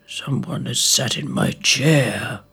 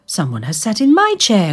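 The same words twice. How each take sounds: First: Lower, softer papa bear grumble; father bear grumbling about his chair; father bear growl. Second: Higher mother bear complaint; a lightly voiced cross mother bear; mother bear grumbling about her chair; mother bear growl. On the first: Acted. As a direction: grumble it low like a big bear. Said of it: "growled Father Bear". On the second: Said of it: "growled Mother Bear".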